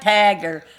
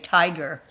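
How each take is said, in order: First: The first vowel sounds like "a" in cat. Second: The first vowel sounds like "eye".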